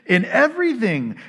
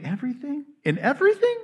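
First: "In everything" stated firmly with a falling end; firm affirmation. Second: Disbelieving echo, leaping high at the end; incredulous questioning. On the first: Preacher answers the doubter, "In everything" as firm statement. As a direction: answer the doubt: "In everything", higher-pitched, landing downward. Reaffirms the verse after the doubt. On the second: Doubting listener questions the verse, incredulous rising echo. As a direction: query "In everything?" with a steep rise. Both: Acted.

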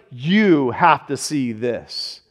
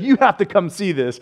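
First: Lower, softer and very slow, every word drawn out; hushed urging. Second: Said in the usual way. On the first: Retold or imitated. Pastor telling the church they must see it, slow hushed awe. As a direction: let the wonder weigh each word. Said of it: "where it's like". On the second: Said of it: "I would just be like".

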